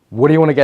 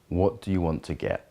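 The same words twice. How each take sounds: First: The voice sounds intense and energetic. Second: The voice sounds steady and grounded. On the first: "A fiery way" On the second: "an earthy way would be something like"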